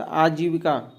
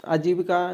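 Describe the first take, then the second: First: आजीविका with a long opening aa, aajeevika; correct form shown. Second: आजीविका with a short opening a, ajeevika; mispronunciation shown. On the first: Teacher giving learners the accepted form, आजीविका said as aajeevika. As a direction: say आजीविका as aa-jee-vi-ka, first vowel held. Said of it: "आजीविका नहीं होता". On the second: Teacher showing learners the rejected form, आजीविका said as ajeevika. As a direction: say आजीविका as a-jee-vi-ka, first vowel clipped short. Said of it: "नहीं होता". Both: Shown as a demonstration.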